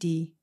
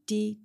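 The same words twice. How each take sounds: First: The word is said on a low level tone. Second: The word is said on a mid level tone. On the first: It means neck. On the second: It means hair.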